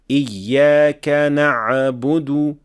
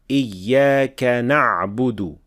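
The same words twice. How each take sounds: First: The ayn has an echoing bounce. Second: The ayn has no echoing bounce. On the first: The speaker calls it wrong. "add qalqala on the ayn in this position" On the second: The speaker calls it right. "without qalqala"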